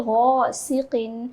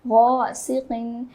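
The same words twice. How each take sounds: Both takes have the same delivery.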